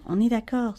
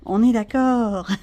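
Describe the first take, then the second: First: Said in the usual way. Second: "On est d'accord" said slowly and louder, falling; drawn out, louder "On est d'accord" with a knowing fall; slow emphatic repeat. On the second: Shown as a demonstration.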